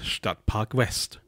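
West is pronounced the English way. The speaker calls it wrong. "Wieso spreche ich das immer so englisch aus?"

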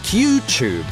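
It is said in a British accent. "in modern British English"

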